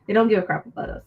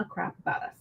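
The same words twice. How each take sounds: First: Said in the usual way. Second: Whispered crap. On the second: Real, not acted. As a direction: whisper "a crap about us" under the breath. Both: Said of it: "I need to stop cussing".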